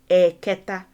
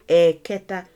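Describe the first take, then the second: Both takes have the same delivery.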